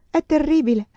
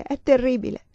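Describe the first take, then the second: First: Higher and louder, voice cracking in despair; broken voice. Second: A touch of despair, voice starting to crack; broken voice. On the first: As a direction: let the repeat break into anguish. (voce spezzata, più alta e forte, disperata) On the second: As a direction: begin to break down. (voce spezzata, appena incrinata) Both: A narrator's reading. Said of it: "Parlava con voce spezzata".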